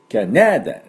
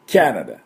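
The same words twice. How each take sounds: First: The stress falls on a later syllable. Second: The stress falls on the first syllable. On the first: The speaker calls it wrong. "キャナダでなくてですね" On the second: The speaker calls it right. "頭にあるんですね"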